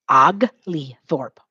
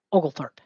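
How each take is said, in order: First: "Oglethorpe" said very slowly as "Og-lee-thorpe"; slow syllabified name. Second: Said in the usual way. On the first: Shown as a demonstration. Teacher slowly sounding out "Oglethorpe" for the class. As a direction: stretch "Oglethorpe" into clear syllables. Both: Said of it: "his name is spelled".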